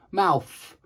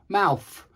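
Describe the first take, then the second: No difference in how they are said.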